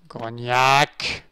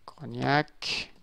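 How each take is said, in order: First: Punched-up second naming; emphatic repeat. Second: Understated, quiet naming; subdued. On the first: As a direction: throw the name out with more force. Repeats the poster name emphatically. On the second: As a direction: read the name softly to yourself. First reading of the poster name. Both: Real, not acted.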